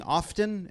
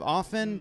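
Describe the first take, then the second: First: First often said with a sounded t, "OFF-ten"; pronounced T. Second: Second often said "OFF-en"; silent T. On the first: Panelist showing the newer way people say it, pronounced T. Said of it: "started saying often instead of often". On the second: Panelist showing the older way of saying it, silent T. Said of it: "instead of often". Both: Shown as a demonstration.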